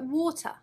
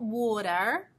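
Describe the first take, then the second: First: A British accent with the final R silent. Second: An American accent with the final R sounded. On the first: The speaker calls it right. "but water" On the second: The speaker calls it wrong. "not water"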